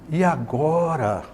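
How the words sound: The question sounds hesitant and full of doubt. The asker is uncertain and unsure what comes next. "ele dá essa ideia, né, de dúvida"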